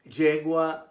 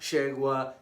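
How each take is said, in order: First: The Y sounds like English J. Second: The Y sounds like Argentine SH or ZH.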